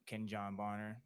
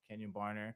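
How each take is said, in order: First: The first name is said in a careful form. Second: The first name is said in a casual form.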